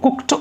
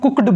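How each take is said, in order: First: The word ends with a t sound. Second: The word ends with a d sound. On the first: The speaker calls it right. "ये ट होता है, इसका जो उच्चारण होता है डियर वो कुक्ड होता है" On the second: The speaker calls it wrong. "इसको कुछ लोग कुक्ड बोलते हैं, ड बोलते हैं, ये ड नहीं होता डियर"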